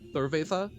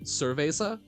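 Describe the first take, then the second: First: The z is pronounced like a th. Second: The z is pronounced like an s. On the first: This is closer to the Spain pronunciation. "it's more of like th- uh, yeah like cerveza is closer" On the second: This is how Latin American speakers say it. "I've always heard it as like cerveza"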